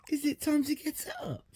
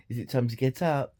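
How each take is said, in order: First: Breathy whispered question pitched very high; a playful secret whisper to the dog. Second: Said in the usual way. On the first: Real, not acted. Asking her dog if it's time to get up, high playful whisper.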